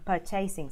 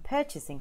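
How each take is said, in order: First: The stress is on the second syllable. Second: The stress is on the first syllable. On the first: The speaker calls it wrong. "rather than" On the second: The speaker calls it right. "you want to be emphasizing the first syllable"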